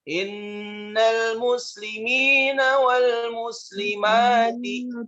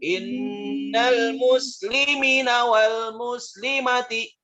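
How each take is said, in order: First: The vowel after the m is drawn out long. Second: The vowel after the m is cut short. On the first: The speaker calls it right. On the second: The speaker calls it wrong.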